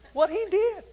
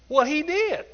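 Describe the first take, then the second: First: It is said in a high falsetto voice. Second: It is said in a normal speaking voice.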